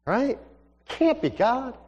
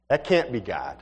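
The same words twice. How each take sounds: First: High, rising "Can't be God"; wavering doubt. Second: Low, falling "can't be God"; dismissive doubt. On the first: Young man questions whether God is speaking, high rising doubt. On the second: Young man brushes off a strange thought, low doubtful statement. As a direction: say "can't be God" as a lowered, settled verdict. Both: Acted.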